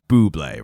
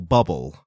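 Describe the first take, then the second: First: The name ends with an 'ay' sound. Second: The name ends with an 'ul' sound. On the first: The name is said the way its owner says it. The speaker calls it right. "you know it's Bublé, right?" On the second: The name is read as it is spelled in English. The speaker calls it wrong. "I heard that new song from that [name]"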